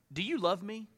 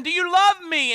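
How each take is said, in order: First: Soft, hushed asking; gentle question. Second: Higher and louder, stressing love; pleading question. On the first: Jesus quietly asking Peter, soft and searching. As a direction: ask it quietly, almost private. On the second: Jesus asking Peter the third time, loud and pleading. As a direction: push hard on "love", urging. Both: Retold or imitated.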